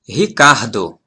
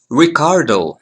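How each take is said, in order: First: The first R sounds like an English H. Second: The first R sounds like an English R. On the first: The speaker calls it right. "The correct is Ricardo" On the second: The speaker calls it wrong. "It's not Ricardo. No, this is too gringo"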